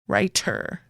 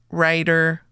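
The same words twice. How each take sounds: First: The middle consonant is a crisp T. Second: The middle consonant sounds like a D. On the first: "they hit that T sound" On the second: "we say it more like a D"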